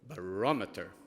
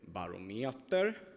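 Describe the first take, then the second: First: It is said in a British English accent. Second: It is said in a Swedish-style accent. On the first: This is the standard way to say it. "The British English pronunciation. And Johanna, you were correct. So it's called barometer" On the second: Colleagues in one office say it this way. "The people at the Swedish office say barometer, three vowels in a row"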